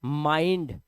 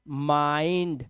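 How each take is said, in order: First: Said in the usual way. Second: माइंड slowly, as "maaaind"; drawn-out vowel. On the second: Shown as a demonstration. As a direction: stretch the "aai" in माइंड. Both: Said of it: "आई का उच्चारण ना आई आ रहा है".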